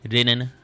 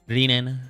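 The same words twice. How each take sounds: The two takes are said the same way.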